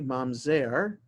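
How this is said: It is pronounced with a Modern Hebrew accent. "I pronounced it in the modern Hebrew way"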